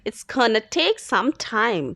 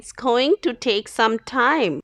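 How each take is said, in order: First: "Going to" is reduced to "gonna". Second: "Going to" is said fully and carefully.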